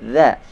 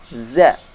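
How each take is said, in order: First: The z is made with the tongue tip slightly out. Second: The z is made with the tongue kept inside. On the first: The speaker calls it right. "Yang benar za" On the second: The speaker calls it wrong. "Banyak di antara kita membaca huruf za dengan membaca za"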